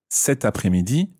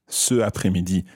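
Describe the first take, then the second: First: A t sound links the first word into après. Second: The vowel runs straight into après without a t. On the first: The speaker calls it right. "you say cet après-midi" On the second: The speaker calls it wrong. "Sounds funny"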